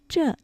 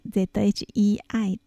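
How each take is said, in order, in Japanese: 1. 母音は普通の e の音です。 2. 母音は ei の音です。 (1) "1 がついているときは这一次、最初の言葉は这と発音します。" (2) "漢数字の1 が省略されたら这次、はい、ZHEI、这と発音します。"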